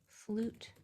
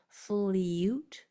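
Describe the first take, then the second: First: The vowel is a plain oo sound. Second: The vowel is a yoo sound with a y-glide. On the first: The speaker calls it right. "You hear how that U is saying U only?" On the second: The speaker calls it wrong. "It's not saying its whole name. It's not flute"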